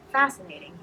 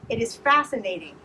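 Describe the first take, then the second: First: Said in the usual way. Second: Fascinating said louder and higher. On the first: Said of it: "he said". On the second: A narrator's reading. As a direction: raise the voice on fascinating. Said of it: "he said louder".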